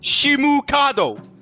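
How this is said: It is said with a Japanese accent. "You just say it in the Japanese accent"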